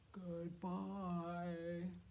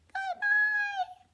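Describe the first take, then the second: First: It is said in a very low voice. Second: It is said in a very high voice.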